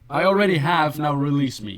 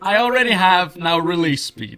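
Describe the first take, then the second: First: The line is delivered weakly, without much force. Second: The line is delivered forcefully, like a yell.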